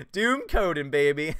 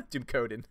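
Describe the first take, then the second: First: Put-on louder, hyped "Doom Coden, baby"; proud proclamation. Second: Said in the usual way. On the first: Shown as a demonstration. Embracing a fan's suggested name, louder hyped cheer. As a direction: proclaim the new name with glee.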